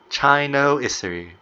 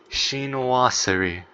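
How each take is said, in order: First: The word is said with an anglicized pronunciation. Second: The word is said with a French pronunciation. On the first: The speaker calls it wrong. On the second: The speaker calls it right.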